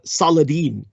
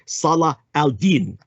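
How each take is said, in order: First: The name is said in an anglicized way. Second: The name is said in an Arabic way. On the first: This is a corrupted Western form. The speaker calls it wrong. "which is a vulgarization" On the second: This is the original form of the name. The speaker calls it right.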